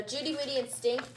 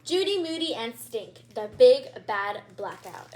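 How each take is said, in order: First: Said in the usual way. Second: Title said grandly, BIG punched loud; dramatic title read. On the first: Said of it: "title said again plainly". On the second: Shown as a demonstration. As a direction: announce the title with flair. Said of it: "title read again".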